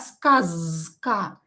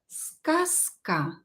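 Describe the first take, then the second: First: The consonant before k is a voiced z. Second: The consonant before k is a voiceless s. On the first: The speaker calls it wrong. "not skazka" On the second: The speaker calls it right. "I pronounce z here as s"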